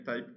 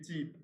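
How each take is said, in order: First: The word is pronounced the English way. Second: The word is pronounced the French way.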